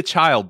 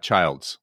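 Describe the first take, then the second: First: Put-on "Child" with no s at the end; correct name. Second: Put-on "Childs" with an added s at the end; common mispronunciation. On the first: Correcting the host, "Child" said with no s. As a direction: say "Child" ending cleanly on the d, no s. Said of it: "It's not S, not Childs". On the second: Showing the common mistake, "Childs" with an s. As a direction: say "Childs", hissing the final s. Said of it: "not Childs". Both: Shown as a demonstration.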